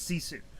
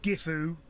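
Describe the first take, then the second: First: The name begins with an s sound. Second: The name begins with a hard g sound. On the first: The speaker calls it right. "It's Sisu" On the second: The speaker calls it wrong. "It's not Gifu"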